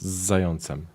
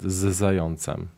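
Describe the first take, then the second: First: The z merges into the following word. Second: The z is said as a separate sound. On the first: "if you say it really quickly, it sounds zającem" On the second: "because I said z zającem"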